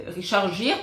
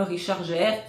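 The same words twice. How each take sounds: First: "Richard Gere" said the English way, Gere like "Geer"; English-accented name. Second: Said in the usual way. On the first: Shown as a demonstration. Film vlogger naming the actor, Gere said the English way. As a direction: give "Richard Gere" an English sound, Gere rhyming with "here". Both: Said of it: "pardon, excusez mon accent".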